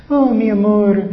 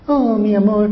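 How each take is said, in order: First: Laughing through a mock "Oh, mi amor", pitched higher and louder; sweet talk that dissolves into laughter. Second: Mock "Oh, mi amor" pitched higher, sugary; hammed-up lover's sweet talk. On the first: Preacher mocking a fake lover, laughing. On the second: Preacher mocking husband who only talks sweet. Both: Mocking empty words of love.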